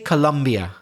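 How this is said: It is said with an English pronunciation. "But in English we tend to say Colombia"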